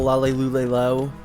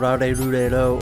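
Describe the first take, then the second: First: The syllables begin with an L sound. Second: The syllables begin with an R sound. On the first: "people call them the Lale Lule Lo" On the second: "they don't have like that L sound"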